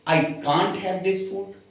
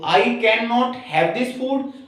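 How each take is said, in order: First: Can and not are merged into one short word. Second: Can and not are said as two full words.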